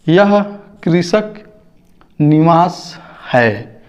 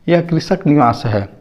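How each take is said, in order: First: कृषक निवास है read slowly, word by word with gaps; slow reading demo. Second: Said in the usual way. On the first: Shown as a demonstration. Teacher to children, reading कृषक निवास है slowly word by word.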